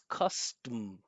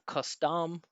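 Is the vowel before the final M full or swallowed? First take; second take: swallowed; full. First: The final vowel is swallowed into a buzzing M. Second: The final syllable has a clear, full vowel. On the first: The speaker calls it right. "this schwa, is just getting completely eaten up by that strong vibration of the M" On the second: The speaker calls it wrong. "Not custom"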